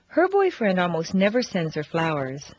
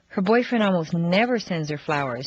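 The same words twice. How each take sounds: First: The stress is on the first word, her. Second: The stress is on the word never.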